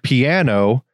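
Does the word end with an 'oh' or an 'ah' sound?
oh. It ends with a standard 'oh' sound.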